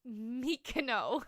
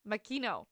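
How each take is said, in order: First: "Mikino" said slowly with an "ee" sound after the M; drawn-out "Mikino", MIK-ee-no; mispronounced name. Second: "Makino" said with a quick schwa, muh-KEE-no, after a laugh; corrected name. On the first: Misreading a new friend's name slowly: "Mikino". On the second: Correcting herself to the friend: "Makino" with a light laugh. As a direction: fix it: "Makino", stress on KEE. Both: Real, not acted. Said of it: "pardon me".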